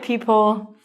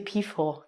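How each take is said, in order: First: The P and H are said separately with a break. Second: The P and H merge into an F sound. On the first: The speaker calls it right. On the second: The speaker calls it wrong.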